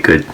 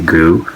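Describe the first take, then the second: First: It is said with an English pronunciation. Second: It is said with a Japanese pronunciation. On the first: The speaker calls it wrong. "they don't say good" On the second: The speaker calls it right. "they say gu"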